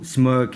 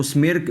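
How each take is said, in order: First: स्मर्क with a neutral "ur" vowel; zabar vowel. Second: स्मिर्क with short "i" before r; wrong "i" vowel. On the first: Teacher giving the correct word, स्मर्क with "ur". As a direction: say स्मर्क as "smurk". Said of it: "वो स्मर्क है". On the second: Teacher telling students not to read it so, स्मिर्क with "i". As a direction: mispronounce smirk as स्मिर्क, "smeerk". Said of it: "स्मिर्क नहीं पढ़ना". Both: Shown as a demonstration.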